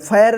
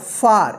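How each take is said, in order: First: The vowel is a front air sound. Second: The vowel is a long open ah. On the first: The speaker calls it wrong. "या फैर नहीं पढ़ेंगे" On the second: The speaker calls it right. "क्या होगा, फार"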